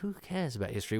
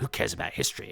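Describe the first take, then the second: First: It is said in a musing, reflective tone. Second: It is said in a gruff, phlegmy, hard tone. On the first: The line is a wistful reflection. "he does it as a kind of philosophical" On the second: The line is a dismissive boast. "tough guy nation chewing a cud, you know, phlegmy, spitty"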